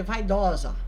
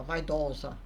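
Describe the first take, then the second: First: Said in the usual way. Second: Lower, clumsy echo of "Vaidosa"; "Vaidosa" repeated low by the mimicking woman; imitating the woman. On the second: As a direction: parrot "Vaidosa" back like a foreigner. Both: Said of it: "E ela me imitava".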